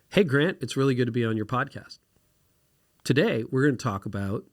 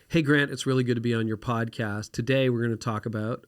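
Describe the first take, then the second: First: Each sentence is said separately with a break. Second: The sentences flow together without a break. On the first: "you need to say every sentence independently" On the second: "instead of saying"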